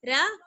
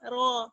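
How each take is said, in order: First: The r sound is light and thin. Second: The r sound is full and heavy. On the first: The speaker calls it wrong. "रा नहीं पढ़ेंगे ... बारीक sound" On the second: The speaker calls it right. "रॉ यानी मोटा पढ़ेंगे, पुर पढ़ेंगे ... भारी साउंड"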